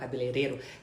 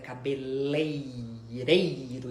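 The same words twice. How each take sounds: First: The third syllable has a plain 'le'. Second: The third syllable has the diphthong 'lei'. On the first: The speaker calls it wrong. "e não cabeleireiro" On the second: The speaker calls it right. "o correto é cabeleireiro"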